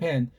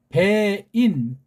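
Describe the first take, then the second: First: The vowel is single, with the y sound dropped. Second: The vowel glides, with the y sound included.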